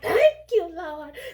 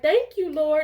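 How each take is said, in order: First: It is said in a mocking imitation. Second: It is said sincerely and plainly.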